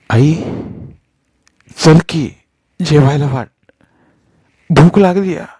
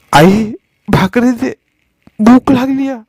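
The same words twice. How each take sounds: First: Put-on higher child voice, tugging for food; a little boy nagging his mother to eat; child asking mother. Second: Much higher, slow whimpering plea; a hungry little boy begging his mother; pleading child. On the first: Hungry son tugging at his mother, small child voice. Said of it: "सुन्याच्या पदर ओढण्यानं". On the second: Hungry son begging his mother for bread, whimpering. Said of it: "सुन्या कळवळला". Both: A narrator's reading.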